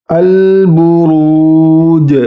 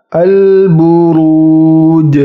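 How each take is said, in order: Both takes have the same delivery.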